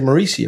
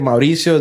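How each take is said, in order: First: The name is said with an American accent. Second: The name is said with a Spanish accent. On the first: "I dumb it down for some people and I say Mauricio" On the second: "I gotta say it like that"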